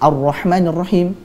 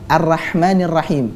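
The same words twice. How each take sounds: First: The ra sound is heavy and full. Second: The ra sound is thin and light. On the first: The speaker calls it right. "harusnya dengan menebalkan ra" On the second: The speaker calls it wrong. "dengan tipis"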